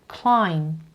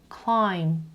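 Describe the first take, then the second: The two takes are said the same way.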